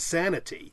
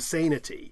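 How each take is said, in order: First: The first vowel is short. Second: The first vowel is long. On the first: "long vowels in certain cases are shortened ... it becomes sanity" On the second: "It doesn't become sanity"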